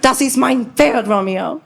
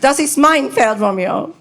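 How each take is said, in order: First: The stress falls on the word Pferd. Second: The stress falls on the word mein.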